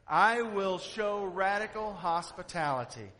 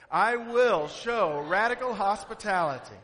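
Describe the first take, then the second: First: It is said with mild, plain emphasis. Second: It is said with strong, forceful emphasis.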